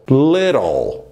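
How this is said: The middle t sounds like a quick r. "Já a pronúncia americana, little, little. O T tem o som do R"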